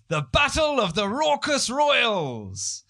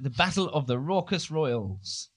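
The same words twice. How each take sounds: First: It is said in a put-on, announcing presenter voice. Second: It is said in an ordinary, casual speaking voice.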